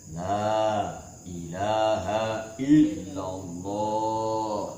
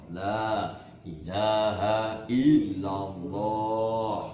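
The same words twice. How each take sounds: The two takes are said the same way.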